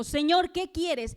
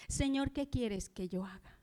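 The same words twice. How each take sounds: First: Higher, louder and slow, crying out to the Lord; a desperate call to the Lord; urgent cry. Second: Said in the usual way. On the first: Acted. Saul's urgent plea to the Lord.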